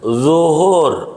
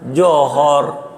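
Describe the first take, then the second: First: The word begins with a 'z' sound. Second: The word begins with a 'j' sound. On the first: The speaker calls it right. "zo, bukan jim" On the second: The speaker calls it wrong. "bukan jim. Dia johor"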